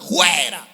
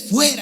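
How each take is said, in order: First: The word begins with a throaty h sound. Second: The word begins with an f sound. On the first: The speaker calls it wrong. "con J" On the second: The speaker calls it right. "se dice fuera"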